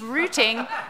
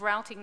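First: Routing is said with a non-US pronunciation. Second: Routing is said with a US pronunciation.

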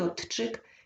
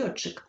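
First: A t sound is heard before the ch. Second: A single lengthened ch sound is heard. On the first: The speaker calls it wrong. "я неправильно вимовляю" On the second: The speaker calls it right. "я повинна вимовляти льотчик"

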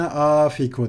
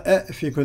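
First: The word begins with an 'a' vowel. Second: The word begins with an 'e' vowel. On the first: The speaker calls it right. "Yerine a fiku denir" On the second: The speaker calls it wrong. "e fiku denmez"

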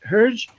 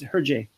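First: The name ends without a final vowel sound. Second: The name ends with an added vowel sound. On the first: The speaker calls it wrong. "you say it almost right" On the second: The speaker calls it right. "but you add the A"

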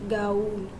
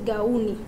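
The two takes are said the same way.

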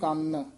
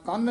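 First: The word is said softly and lightly. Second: The word is said forcefully and heavily. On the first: The speaker calls it right. "ਇੱਥੇ ਪੋਲਾ ਹੀ ਉਚਾਰਨ ਕਰਨਾ" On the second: The speaker calls it wrong. "ਕੰਨ ਨਹੀਂ ਕਹਿਣਾ"

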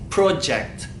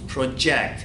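First: The stress is on the first syllable. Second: The stress is on the second syllable. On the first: It is used as a noun. "İsim haline pro'ya vurgu yapmamız gerekiyor" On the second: It is used as a verb. "Fiil halini kullandığımızda project şeklinde project olarak kullanıyoruz"

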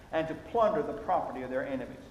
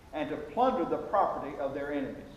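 Both takes have the same delivery.

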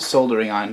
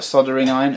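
First: The l sound is clearly pronounced. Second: The l sound is silent. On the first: The speaker calls it right. "it's a soldering iron. Look at how it's spelt" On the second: The speaker calls it wrong. "That's not a soldering iron"

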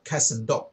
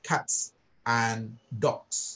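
First: The words are said fast and run together. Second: Each word is said clearly and separately. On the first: "ถ้าพูดเร็วนะมันจะเชื่อมกันไปเลยนะครับ" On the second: "หรือถ้าจะพูดเนี่ยมันจะชัด"

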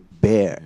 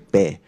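First: It is said the standard English way. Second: It is said the typical Cantonese-accented way. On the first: The speaker calls it right. "but it should be bear instead" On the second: The speaker calls it wrong. "In Cantonese, we'll usually say bear"

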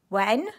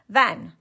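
First: The word begins with a W sound. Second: The word begins with a V sound.

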